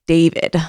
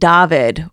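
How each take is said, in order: First: The name is said the American way. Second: The name is said the Scandinavian way.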